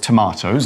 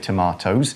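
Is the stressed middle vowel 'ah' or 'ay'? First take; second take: ay; ah. First: The middle vowel sounds like 'ay'. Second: The middle vowel sounds like 'ah'.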